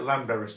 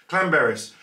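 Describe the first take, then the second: First: The name begins with a plain L sound. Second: The name begins with a CL sound. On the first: The speaker calls it wrong. "it looks like Llanberis, but it's not" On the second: The speaker calls it right. "If you've got two L's in Wales, it's a cl"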